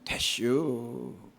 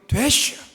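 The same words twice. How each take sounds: First: It sounds gentle, with stress at the end. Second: It sounds firm, with force at the start.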